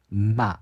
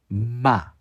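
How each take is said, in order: First: The syllable has a strong, emphasized nasal sound. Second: The same.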